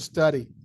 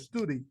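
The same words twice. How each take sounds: First: The first vowel is a short 'uh' sound. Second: The first vowel is a long 'oo' sound. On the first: The speaker calls it right. "you go study. That is the pronunciation" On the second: The speaker calls it wrong. "you don't pronounce a study, right?"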